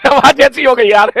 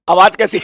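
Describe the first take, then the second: First: Laughing through the words, higher and louder. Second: Said in the usual way. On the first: Real, not acted. Teacher to students about his hoarse voice, laughing. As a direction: laugh at the state of your own voice.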